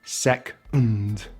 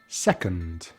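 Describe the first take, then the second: First: The second syllable has no vowel at all. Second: The second syllable has a short reduced vowel. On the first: "even say it without the schwa as well, so it just becomes like this" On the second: "we can chuck the schwa in there"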